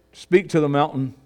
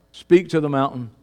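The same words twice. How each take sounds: The two takes are said the same way.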